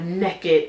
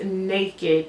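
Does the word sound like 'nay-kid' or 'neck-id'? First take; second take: neck-id; nay-kid. First: The first vowel is short, like 'neck'. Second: The first vowel is long, like 'nay'. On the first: The speaker calls it wrong. "not naked, as in N E K K I D" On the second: The speaker calls it right. "it's naked"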